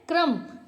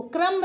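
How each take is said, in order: First: क्रम्ब said "kram", ending on M; silent B. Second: क्रम्ब with a sounded final B; B pronounced. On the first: Teacher giving the correct reading, क्रम्ब with silent B. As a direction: drop the B from क्रम्ब. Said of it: "क्या पढ़ते हैं". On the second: Teacher showing learners the mistake, क्रम्ब with audible B. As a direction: release the B in क्रम्ब. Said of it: "क्रम्ब नहीं पढ़ते हैं". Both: Shown as a demonstration.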